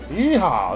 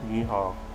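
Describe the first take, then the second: First: It is said in a cheerful, upbeat way. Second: It is said in a sad, gloomy way.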